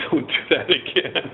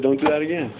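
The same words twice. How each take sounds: First: Slow, deliberate mock scolding; slow stern warning. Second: Said in the usual way. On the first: Officers warning the teen at his parents' house, slow mock scolding. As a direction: drag it out like a cop lecturing a kid. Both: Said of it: "and said".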